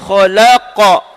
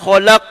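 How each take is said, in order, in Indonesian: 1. Huruf terakhir memantul dengan gema seperti 'a'. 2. Huruf terakhir tidak memiliki gema seperti 'a'. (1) "sebab qaf baris atasnya qa" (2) "jangan khalaq"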